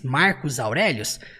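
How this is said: The name has a Portuguese pronunciation. "a gente fale assim no português"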